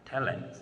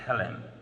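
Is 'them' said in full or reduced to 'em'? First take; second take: reduced; reduced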